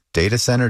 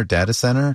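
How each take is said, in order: First: "data center" as DAY-tuh center; long-a data center. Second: "data center" as DAT-uh center, pitched higher; short-a data center. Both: Shown as a demonstration. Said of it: "you all say data, I say data".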